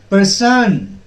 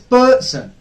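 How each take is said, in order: First: The stress is on the second syllable. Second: The stress is on the first syllable. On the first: The speaker calls it wrong. "It will not be pronounced as person. No, that will be wrong" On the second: The speaker calls it right. "It is person"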